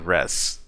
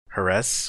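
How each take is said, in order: First: The syllable begins without any H sound. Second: The syllable begins with an audible H sound. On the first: "I always like thought the H was silent" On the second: "Do you pronounce the H too?"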